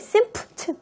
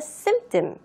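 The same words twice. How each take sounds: First: The p sound is clearly pronounced. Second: The p sound is left silent. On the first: The speaker calls it wrong. "거의 symptom 이렇게 하는 게 아니라" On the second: The speaker calls it right. "P가요, 묵음이에요"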